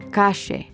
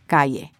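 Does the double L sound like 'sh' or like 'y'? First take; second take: sh; y. First: The double L sounds like sh. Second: The double L sounds like y. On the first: This is the Argentine way of saying it. "They pronounce their double L's and Y's with a sh sound, as in ayer or calle" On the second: This is the usual way of saying it elsewhere. "instead of ayer or calle"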